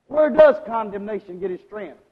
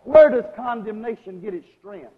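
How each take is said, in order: Both takes have the same delivery.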